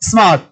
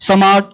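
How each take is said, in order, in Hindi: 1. s सीधे m में मिल जाता है। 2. s के बाद एक छोटा स्वर जोड़ा जाता है। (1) "ए सा सिटी मारो" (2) "अभी अगर बच्चा हरियाणा का बोलेगा"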